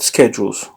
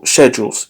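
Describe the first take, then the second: First: It is said with an American accent. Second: It is said with a British accent.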